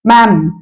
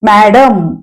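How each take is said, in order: First: The d sound is left out entirely. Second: The d sound in the middle is pronounced. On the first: The speaker calls it right. "मॅम हा उच्चार English मधला" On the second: The speaker calls it wrong. "मॅडम असं आपण मराठीत म्हणू पण इंग्लिशमध्ये नाही म्हणायचंय"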